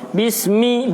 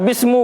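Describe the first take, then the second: First: The word ends with an i vowel. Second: The word ends with a u vowel. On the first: The speaker calls it right. "Makanya dibaca ismi, bismi" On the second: The speaker calls it wrong. "Atau bismu, bukan juga"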